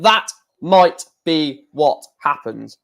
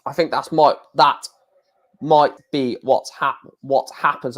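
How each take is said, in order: First: Slow, careful "That might be what happens"; measured correction, each word of "might be what happens" separate; deliberate retry. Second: Stumbling over "might be what happens"; halting false starts on "that might be what happens"; tongue-tied. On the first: Shown as a demonstration. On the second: Real, not acted. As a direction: trip on "might" and cut "happens" short, then retry. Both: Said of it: "I can't even speak at the moment".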